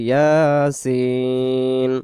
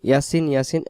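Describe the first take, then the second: First: The final vowel is stretched very long. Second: The final vowel is short, not stretched. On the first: The speaker calls it right. "সিনকে আমরা চার আলিফ টান দিয়ে দেব" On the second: The speaker calls it wrong. "ইয়াসিন ইয়াসিন বলবো না আমরা"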